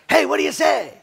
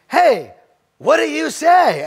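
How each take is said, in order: First: It sounds like a casual, friendly greeting. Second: It sounds like a real question expecting an answer.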